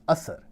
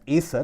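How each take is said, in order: First: The first syllable sounds like 'ass'. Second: The first syllable sounds like 'ace'. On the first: This is the actual pronunciation. The speaker calls it right. "but actual pronunciation is Asser" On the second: This is a common alternative pronunciation. The speaker calls it wrong. "also pronounced as Acer"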